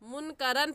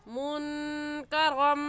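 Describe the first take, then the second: First: The ending nasal is said as a clear n. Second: The ending nasal merges into an m sound. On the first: The speaker calls it wrong. "मुनकरन पढ़ना गलत है" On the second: The speaker calls it right. "सही है मुनकरम"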